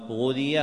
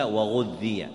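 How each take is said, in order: First: "غذي" with a single, light dhal; without gemination. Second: "وغذي" with a doubled dhal; with gemination. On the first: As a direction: say "غذي" as ghudhiya, middle consonant undoubled. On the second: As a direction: say "وغذي" as wa-ghudhdhiya, holding the middle consonant. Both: Shown as a demonstration. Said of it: "جاء أيضًا بالتشديد".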